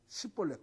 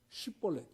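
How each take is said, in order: First: It begins with an Ephraimite s sound. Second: It begins with a clear sh sound.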